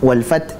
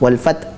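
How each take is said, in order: No difference in how they are said.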